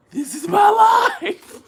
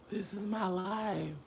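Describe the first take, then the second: First: High, loud, slow lament; wailing. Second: Resigned murmur. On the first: Lamenting her life to viewers, loud wail. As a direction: wail it at the sky. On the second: Lamenting her life. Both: Real, not acted.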